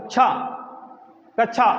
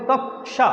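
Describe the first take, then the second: First: कक्षा mispronounced "अछा"; wrong way. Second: कक्षा with the half क sounded clearly, "कक्-षा"; कक्षा, the क audible before षा; correct way. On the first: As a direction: say कक्षा wrongly, with छ instead of the half क. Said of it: "ऐसे तो नहीं बोलेंगे". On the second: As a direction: say कक्षा releasing the half क out of the mouth. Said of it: "आप बोलेंगे कक्षा". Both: Shown as a demonstration.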